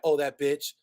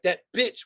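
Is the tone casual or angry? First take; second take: casual; angry. First: It is said in a light, offhand tone. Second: It is said with force and rage.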